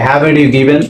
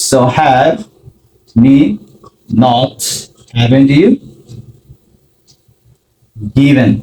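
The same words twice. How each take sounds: First: Said in the usual way. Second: Spelled out word by word with long gaps; slow word by word. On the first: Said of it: "present পারফেক্টে মনে রাখতে হবে". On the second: Shown as a demonstration. Teacher assembling the question for learners, slowly word by word. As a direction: lay each word down separately. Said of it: "ব্যবহার করব have".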